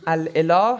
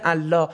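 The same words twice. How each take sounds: First: الاله said as al-elah; full form with hamza. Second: الله merged as Allah with doubled l; hamza dropped. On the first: Teacher showing the original form, الاله with hamza sounded. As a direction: keep the hamza before the e in الاله. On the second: Teacher showing the worn-down form, الله as one smooth Allah. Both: Shown as a demonstration. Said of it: "همزه رو حذف کردن".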